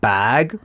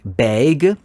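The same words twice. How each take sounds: First: Bag is said with a non-Canadian vowel. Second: Bag is said with a Canadian-accented vowel. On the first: "not bag" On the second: "you got this Canadian accent. You say, you say like backpack or bag, as in like bag"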